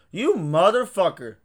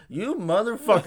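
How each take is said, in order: First: Drawn-out mock outrage. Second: Laughing mock outrage. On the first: Retold reaction to friend paying bill. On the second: Friend's retold reply, laughing.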